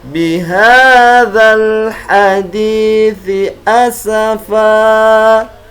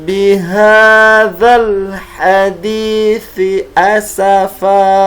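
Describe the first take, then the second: The two takes are said the same way.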